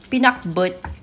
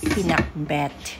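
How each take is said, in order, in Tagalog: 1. Ang huling pantig ay may patinig na 'o', ayon sa paraang Ilocano. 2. Ang huling pantig ay may patinig na 'e', ayon sa paraang Tagalog. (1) "pinakbot in Ilocano" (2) "pag Tagalog sinabing pinakbet, it's not good"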